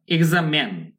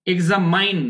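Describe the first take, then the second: First: এক্সামেন with "men" as the last syllable; correct pronunciation. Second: এক্সামাইন with "main" as the last syllable; wrong pronunciation. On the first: Teacher correcting the "main" version, American "men" ending. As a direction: say এক্সামেন, a short "e" ending, falling. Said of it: "এক্সামাইন না". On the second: Teacher warning learners off this version, wrong "main" ending. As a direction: slowly say এক্সামাইন, ending in a long "ain". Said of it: "না". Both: Shown as a demonstration.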